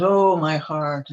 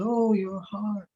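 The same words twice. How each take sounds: First: A slow, drawn-out groan of pain, a touch louder; mock moaning. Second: Higher, slow, squeaky copycat of her groan; mocking echo. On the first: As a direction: ham up a suffering queen's sigh. Queen moaning over her pain. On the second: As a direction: parrot her moan back like a tiny fly. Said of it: "the flies sort of mimicked her".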